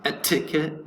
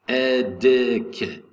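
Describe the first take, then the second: First: The first T is said as a clear T. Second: The first T is said like a soft D. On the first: The speaker calls it wrong. "So it's not etiquette" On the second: The speaker calls it right. "First T is going to be pronounced like a D"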